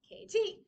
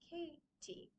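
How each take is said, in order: First: The stress is on the second syllable. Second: The stress is on the first syllable. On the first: The speaker calls it wrong. "It's not K T" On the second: The speaker calls it right. "soft T"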